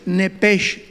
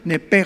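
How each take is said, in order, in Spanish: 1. La palabra termina en un sonido 'sh'. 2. La palabra termina en una 'j' gutural. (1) "S H, nepesh, tal como suena" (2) "se pronuncia como J"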